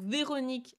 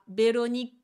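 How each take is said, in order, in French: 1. Le nom commence par un son V. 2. Le nom commence par un son B.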